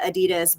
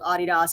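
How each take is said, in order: First: The name is said the usual American way. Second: The name is said the non-American way. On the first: "in the States, right? We call it Adidas" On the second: "but I do know that it's called Adidas"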